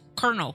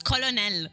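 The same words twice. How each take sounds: First: The word is said with an R sound. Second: The word is said without an R sound. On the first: The speaker calls it wrong. "Why are you adding an R?" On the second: The speaker calls it right. "is what it should be"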